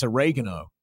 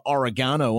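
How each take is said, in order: First: Oregano said o-REG-a-no, stress on REG; the North American way, oregano with stress on the second syllable; Canadian oregano. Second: Oregano said ore-GAH-no, stress on the long middle ah; the Australian way, oregano with a broad ah in GAH. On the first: Correcting himself to the local word, oregano as o-REG-a-no. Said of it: "It's oregano". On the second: Australian in Vancouver showing his old word, oregano as ore-GAH-no. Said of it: "you don't ask for". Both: Shown as a demonstration.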